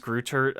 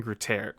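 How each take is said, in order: First: "Greutert" said as spelled, ending in "tert"; alternative pronunciation. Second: "Greutert" said French-style, ending like "tair"; accented pronunciation. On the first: Host offering a second guess, "Greutert" in plain English sounds. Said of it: "maybe it's Greutert". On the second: Host guessing a director's name, "Greutert" with an accented ending. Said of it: "is pronounced Kevin Greutert". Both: Shown as a demonstration.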